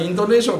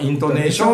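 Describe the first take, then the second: First: It is said with a standard pitch pattern. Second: It is said with a local regional pitch pattern. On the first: "僕らにとったらイントネーションって普通に言える" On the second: "この人はイントネーション"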